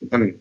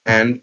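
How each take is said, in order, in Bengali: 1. শব্দটি সংক্ষেপে উচ্চারিত হয়, d ছাড়া। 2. শব্দটি পুরোপুরি উচ্চারিত হয়, শেষে d।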